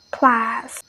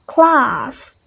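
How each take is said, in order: First: American "class" with the a of cat; "class" with a flat American a vowel; American pronunciation. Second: British "Class" with a long ah; "Class" with the vowel open and back; British pronunciation. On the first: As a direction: say "class" with a front "a", never ah. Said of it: "But Americans say". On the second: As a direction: say "Class" as "clahss". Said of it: "the British pronounces like". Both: Shown as a demonstration.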